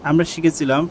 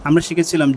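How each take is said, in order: The two takes are said the same way.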